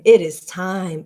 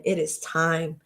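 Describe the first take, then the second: First: Said in the usual way. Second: Softer, hushed it is time; hushed repeat. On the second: Real, not acted. To the audience, repeating the call in a hush. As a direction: let it drop to a hush.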